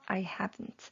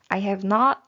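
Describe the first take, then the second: First: Have and not are contracted together. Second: Every word is said in full.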